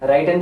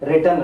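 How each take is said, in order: First: The first vowel sounds like 'eye'. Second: The first vowel sounds like short 'ih'. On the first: The speaker calls it wrong. "ரைட்டன் சொல்லக்கூடாது" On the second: The speaker calls it right. "ரிட்டன் அப்படின்னு சொல்லணும்"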